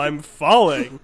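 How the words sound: It sounds like mock, pretended fear. The speaker is not really in danger. "you're pretending to be terrified"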